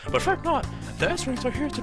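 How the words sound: It is said in a put-on character voice.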